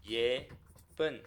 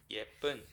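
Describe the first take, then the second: First: 예쁜 split widely into 예 and 쁜; 예쁜 broken in two for counting; syllable by syllable. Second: Said in the usual way. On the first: Shown as a demonstration. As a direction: leave a clear pause inside 예쁜. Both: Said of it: "How many syllables?".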